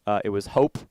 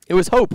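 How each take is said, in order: First: Said in the usual way. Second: "hope" lifted high and louder; emphatic. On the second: Acted. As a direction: punch the reveal word "hope".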